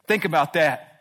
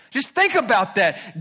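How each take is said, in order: First: Said in the usual way. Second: "Just think about that" slower, higher and louder; slow pleading emphasis on "think"; emphatic urging. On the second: Shown as a demonstration. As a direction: lean in and press the thought home slowly.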